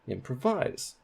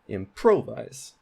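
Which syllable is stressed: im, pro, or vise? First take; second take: vise; pro. First: The stress is on the last syllable. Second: The stress is on the middle syllable. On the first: "Now let's put primary stress on vise" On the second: "That sounds really weird, but that is primary stress on pro"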